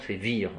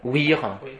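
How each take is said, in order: First: The word begins with a V sound. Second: The word begins with a W sound. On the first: This is the Roman pronunciation. The speaker calls it right. "Non, c'est Vir" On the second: This is the restored pronunciation. The speaker calls it wrong. "Wir, mais Wir quoi?"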